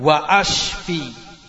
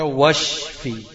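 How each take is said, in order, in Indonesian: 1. Hamzah tetap dibaca sebelum ashfi. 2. Hamzahnya dihilangkan, wa dan shfi disambung. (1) "kalau kamu salah ucap, kamu masukkan di situ hamzah kota" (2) "ini baca washfi"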